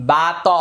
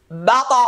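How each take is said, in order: First: "বা ত" as two full syllables, no upward bounce; wrong qalqalah. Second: "বা ত" with ত echoed sharply upward; correct qalqalah. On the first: Teacher showing students what to avoid, "বা ত" without the upward echo. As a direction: say "বা ত" with a full vowel on ত, not lifted. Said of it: "এরকমটা হবে না". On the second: Teacher modelling the rule for students, "বা ত" with an upward bounce. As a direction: bounce the ত of "বা ত" up in a short echo. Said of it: "আওয়াজটা উপরের দিকে যাবে". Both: Shown as a demonstration.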